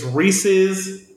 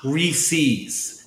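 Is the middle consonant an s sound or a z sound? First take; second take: z sound; s sound. First: The middle consonant is a buzzing z sound. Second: The middle consonant is a hissing s sound. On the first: The speaker calls it right. "But it's Reese's" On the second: The speaker calls it wrong. "not Reese's. There's no C in there"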